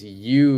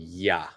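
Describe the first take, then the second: First: The word is said in full, like 'you'. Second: The word is shortened to a reduced 'ya'. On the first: "this "you"" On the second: "is going to change into "ya.""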